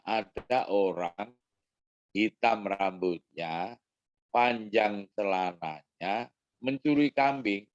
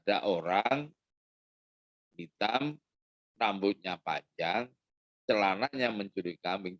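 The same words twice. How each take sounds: First: The first pause comes after 'rambutnya'. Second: The first pause comes after 'hitam'. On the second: The trousers are the ones stealing the goat.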